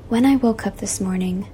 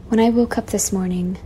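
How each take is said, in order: Both takes have the same delivery.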